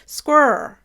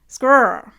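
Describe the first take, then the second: First: It is said as one syllable, Canadian style. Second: The same.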